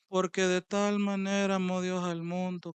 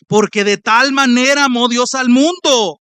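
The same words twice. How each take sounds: First: It is said flatly, like a routine recitation. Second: It is said with fervent, reverent expression. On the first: The words are just recited out of habit. The speaker calls it wrong. "Y tú lo vienes a recitar todos los días. eh" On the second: The words are valued and delighted in. The speaker calls it right. "No, hermano"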